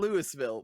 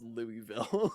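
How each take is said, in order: First: Every syllable is said as it is spelled. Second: The word is said in a shortened form. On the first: "It reads" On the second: "but it's pronounced"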